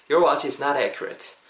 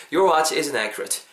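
First: "is not" in full before "accurate", slowly; uncontracted is not. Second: "isn't" contracted and linked into "accurate", slowly. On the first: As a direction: slowly model both words of "is not". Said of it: "Is not을 붙여서". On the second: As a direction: slowly model "isn't accurate" with the short form. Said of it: "합치면은요". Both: Shown as a demonstration.

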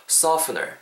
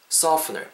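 Both takes have the same delivery.

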